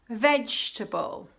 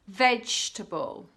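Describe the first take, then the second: Both takes have the same delivery.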